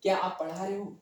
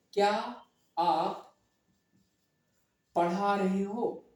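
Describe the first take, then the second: First: Said in the usual way. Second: क्या, आप, पढ़ा रहे हो said slowly with pauses between words. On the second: Shown as a demonstration. Teacher spelling out the question for students, slowly. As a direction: space out क्या and आप with long pauses, then stretch पढ़ा रहे हो. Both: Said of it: "ध्यान से समझना".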